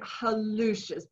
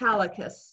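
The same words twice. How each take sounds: First: The word is said like hallucis. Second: The word is said like hallicus. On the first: The speaker calls it right. "say hallucis ... then you will have the U, where the U belongs" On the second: The speaker calls it wrong. "don't say hallucis, ... you're going to spell it H A L L I C U S"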